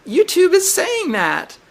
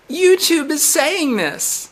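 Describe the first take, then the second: First: YouTube hit high, falling after; stress on YouTube. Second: YouTube said higher and slowed; stress on YouTube. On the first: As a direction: hammer the word YouTube. Repeats accusation. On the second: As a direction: lean on the word YouTube, pointing the finger. Insisting the bot spoke. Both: Real, not acted.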